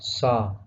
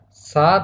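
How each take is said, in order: First: The s sound is thick and heavy. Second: The s sound is thin and light. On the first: The speaker calls it wrong. "tafkhim atau tebal ... Seperti huruf sod" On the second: The speaker calls it right. "bukan sa"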